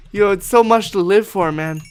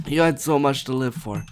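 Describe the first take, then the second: First: A touch higher and louder, hammed-up grief; mock eulogy. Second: Said in the usual way. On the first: Gamer mock-eulogises the chicken with hammed-up grief. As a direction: grieve this line theatrically.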